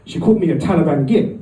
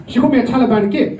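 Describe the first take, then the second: First: Said in the usual way. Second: "called" punched higher and faster; emphatic repeat. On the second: Retold or imitated. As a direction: hit "called" hard, a touch faster, higher up.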